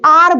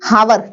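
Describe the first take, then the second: First: The word starts with a vowel sound. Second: The word starts with an h sound. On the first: The speaker calls it right. "आर बोलते हैं इसको" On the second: The speaker calls it wrong. "हावर नहीं"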